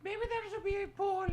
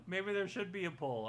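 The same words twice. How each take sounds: First: Squeaky high character voice; high cartoon voice; high puppet voice. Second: Said in the usual way. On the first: Puppet then plain repeat.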